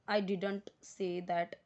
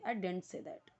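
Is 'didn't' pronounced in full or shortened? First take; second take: full; shortened. First: 'Didn't' is said in full, two clear syllables. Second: 'Didn't' is shortened to a quick 'dint'. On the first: The speaker calls it wrong. "डिडंट नहीं बोलना है, ... ऐसे नहीं" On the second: The speaker calls it right. "Short में बोलना है"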